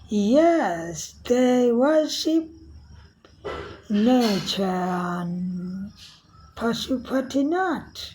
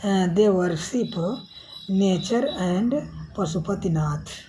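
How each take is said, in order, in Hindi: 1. इसे ब्रिटिश लहजे में पढ़ा गया है। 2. इसे बोलने वाले के सामान्य लहजे में पढ़ा गया है।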